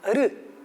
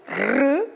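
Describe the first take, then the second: First: The R sound is weak. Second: The R sound is strong. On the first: It is written with one R. "um R quando o som é fraco" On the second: It is written with two R's. "Dois R's quando o som é forte"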